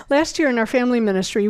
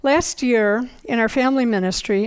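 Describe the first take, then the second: First: Fast restart of "Last year in our family ministry"; quick, hurried restart; galloping along. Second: Said in the usual way. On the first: Shown as a demonstration. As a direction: rush the phrase to make up time. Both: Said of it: "I'm galloping along here".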